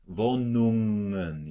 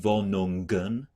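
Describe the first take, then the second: First: The ng flows smoothly without a burst. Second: The g is released with a burst. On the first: The speaker calls it right. "You just go smoothly out of the" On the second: The speaker calls it wrong. "Another common trap is to explode the G"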